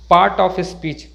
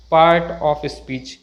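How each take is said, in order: First: Part of speech with "paat"; silent r. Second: Part of speech with an audible r in part; slow down and sound the r in part. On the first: Teacher models the correct phrase, r silent. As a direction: drop the r in Part. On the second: Teacher shows the mistake, r sounded. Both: Shown as a demonstration.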